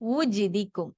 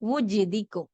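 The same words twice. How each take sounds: No difference in how they are said.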